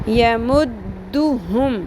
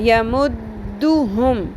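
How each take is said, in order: Both takes have the same delivery.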